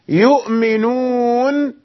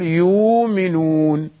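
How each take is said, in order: First: A glottal stop follows the first vowel. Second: The glottal stop becomes a long vowel. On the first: "الهمزة ساكنة" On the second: "فيبدلها ورش يقول يؤمنون"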